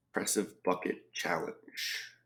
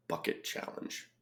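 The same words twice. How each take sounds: First: Said in the usual way. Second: Whisper. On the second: Real, not acted. Repeats clue under breath.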